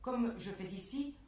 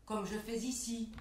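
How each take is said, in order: Both takes have the same delivery.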